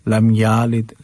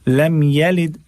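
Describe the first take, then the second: First: The vowel after the y sound is drawn out. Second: The vowel after the y sound is kept short. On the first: The speaker calls it wrong. "कुछ लोग तो ऐसे भी पढ़ते हैं ... गलत है, बिल्कुल गलत है" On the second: The speaker calls it right. "या को खींचना नहीं है, सिर्फ जबर है उस पे"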